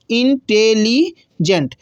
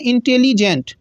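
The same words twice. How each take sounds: First: इंटेलिजेंट stretched very slowly, syllable by syllable; drawn-out syllables. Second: Said in the usual way. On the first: Shown as a demonstration. Teacher slowly sounds out the word for students. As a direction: pull इंटेलिजेंट apart slowly. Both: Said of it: "इंटेलिजेंट का उच्चारण कितना".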